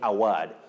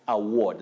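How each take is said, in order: First: The stressed vowel is not a long aw sound. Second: The stressed vowel is a long aw sound. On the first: The speaker calls it wrong. "Many people, Yusuf, find themselves saying award" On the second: The speaker calls it right. "they represent the long sound O"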